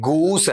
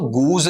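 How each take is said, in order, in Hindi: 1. यह शब्द फुफकारती "s" ध्वनि से खत्म होता है। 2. यह शब्द भनभनाती "z" ध्वनि से खत्म होता है। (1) "गूस है आपका" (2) "गूज नहीं होता बेटा"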